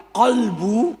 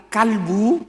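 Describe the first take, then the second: First: Kolbu said with a rounded o in the first syllable; right pronunciation. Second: Kalbu said with an open a in the first syllable; wrong pronunciation. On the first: Preacher shows the word for heart, careful kolbu. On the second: Preacher shows the slip that means dog, open-a kalbu. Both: Shown as a demonstration.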